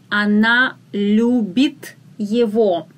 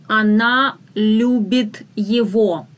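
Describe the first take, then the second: No difference in how they are said.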